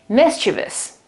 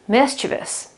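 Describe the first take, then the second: First: The stress falls on the first syllable. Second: The stress falls on the first syllable.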